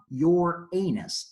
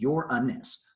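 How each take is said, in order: First: One syllable is drawn out long. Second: All three syllables are short. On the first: It sounds like a rude body word. The speaker calls it wrong. "this is not your anus" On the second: It is the planet's name. The speaker calls it right. "Three short syllables"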